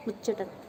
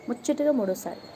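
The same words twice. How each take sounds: First: Said in the usual way. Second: ముచ్చటగా said higher, with the first syllable punched; emphatic retake. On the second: Shown as a demonstration. Host tells viewers about her third tea, stressing ముచ్చటగా. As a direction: land on ముచ్చటగా with relish, then fall.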